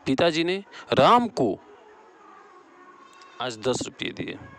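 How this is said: The stress falls on राम को. "यहाँ राम को हो जाएगा।"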